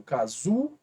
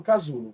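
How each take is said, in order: First: "Casulo" broken up, with ZU held out; stress on ZU. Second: Said in the usual way. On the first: Shown as a demonstration. Teacher shows students the strongest syllable, "Casulo" with ZU stretched. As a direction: lean on the middle syllable of "Casulo": ca-ZU-lo. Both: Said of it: "Azul é a mais forte".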